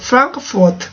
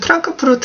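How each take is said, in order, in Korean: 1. 이 단어는 F 소리로 시작합니다. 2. 이 단어는 P 소리로 시작합니다. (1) "F 발음 해주셔야 돼요" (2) "우리나라에는 F 발음이 없기 때문에 그냥 프랑크푸르트"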